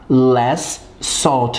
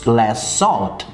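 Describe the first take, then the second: First: Both S sounds are pronounced separately. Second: The two S sounds merge into one. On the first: The speaker calls it wrong. "Não tem necessidade de você falar less salt, dois S" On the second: The speaker calls it right. "pronunciar o último som S da palavra salt"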